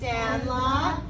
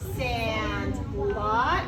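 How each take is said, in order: First: It is read smoothly as one word. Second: It is read as two separate words. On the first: The speaker calls it right. "we should read it as if it is one word" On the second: The speaker calls it wrong. "I'm reading it as if it's two separate words"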